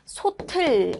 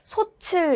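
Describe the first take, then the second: First: The second syllable begins with a t sound. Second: The second syllable begins with a ch sound. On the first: The speaker calls it right. "이 받침을 뒤로 연음시켜줘서 소틀 이렇게 발음해주는 것이 맞는 발음" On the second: The speaker calls it wrong. "국의 음화를 잘못 적용해서 소칠 이렇게 치읓의 형태로 발음"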